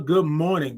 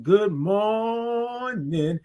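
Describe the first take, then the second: First: Said in the usual way. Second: "morning" held very long, high; drawn-out good morning. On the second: Real, not acted. Host greeting a regular viewer, "morning" drawn way out. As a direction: sustain the "or" of "morning" on a high note. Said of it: "all those O's and R's and I N G's".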